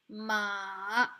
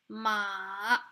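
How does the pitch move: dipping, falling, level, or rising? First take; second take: dipping; dipping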